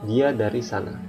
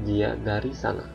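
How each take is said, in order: No difference in how they are said.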